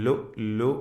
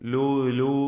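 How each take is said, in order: First: The glottal stops are clear and sharply cut. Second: The glottal stops are dropped and slurred. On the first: The speaker calls it right. "വ്യക്തമാക്കി ശിദ്ദത്തോടുകൂടി മുറിച്ചുച്ചരിക്കേണ്ട അക്ഷരമാണ് ഹംസ" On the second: The speaker calls it wrong. "ലു ലു ലു ലു എന്നൊന്നും പറയരുത്. അവ്യക്തമായി ഹംസയെ ഉച്ചരിക്കരുത്"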